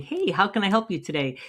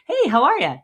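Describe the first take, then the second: First: Canned clerk greeting. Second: Bright, loud, high friendly hello; friendly greeting. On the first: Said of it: "when you come out and saying". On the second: Shop owner greets a customer at the door, cheerful and loud. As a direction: greet them like an old friend walking in. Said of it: "acknowledge them real quick". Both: Shown as a demonstration.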